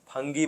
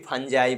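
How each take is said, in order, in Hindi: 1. बीच का व्यंजन कठोर g है। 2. बीच का व्यंजन j की ध्वनि है। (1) "कोई फंगी बोलते हैं" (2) "कोई फंजाई बोलते हैं"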